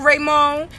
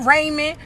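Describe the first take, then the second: First: "Raymond" with a long "oh" in the second syllable, ray-MOAN. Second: "Raymond" with a short, unstressed second syllable, RAY-min. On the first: Listing what other people call you, "Raymond" as ray-MOAN. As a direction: say "Raymond" as Ray-mone, final d dropped. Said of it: "your people call you Raymond". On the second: Listing what your people call you, "Raymond" as RAY-min. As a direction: say "Raymond" as RAY-mun, second vowel reduced. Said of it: "this people call you Raymond". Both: Shown as a demonstration.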